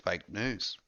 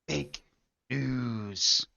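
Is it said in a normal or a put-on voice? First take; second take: normal; put-on. First: It is said in the speaker's normal voice. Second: It is said in a put-on impression voice.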